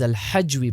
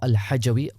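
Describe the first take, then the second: First: No vowel is heard between j and w. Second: A vowel is heard between j and w. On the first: The speaker calls it right. "his name is Al-Hajwi" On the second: The speaker calls it wrong. "not Al-Hajawi"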